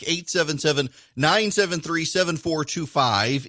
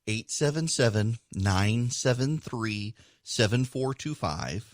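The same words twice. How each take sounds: First: The number is read quickly. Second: The number is read more slowly. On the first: The speaker calls it wrong. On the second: The speaker calls it right.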